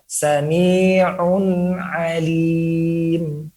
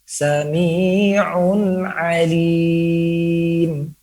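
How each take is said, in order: First: The words flow together with a light nasal hum. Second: The words flow together with a light nasal hum.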